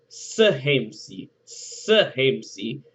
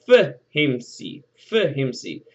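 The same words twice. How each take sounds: First: Sehemsi said as seh-HEM-see, the S prefix marked; Egyptian verb modeled. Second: Fehemsi said as feh-HEM-see, the F prefix marked; Egyptian verb modeled. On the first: Teacher contrasts the feminine S form for students. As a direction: model Sehemsi with a clear S at the start. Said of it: "because Berenike is". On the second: Teacher contrasts the masculine F form for students. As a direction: model Fehemsi with a clear F at the start. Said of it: "it would be". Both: Shown as a demonstration.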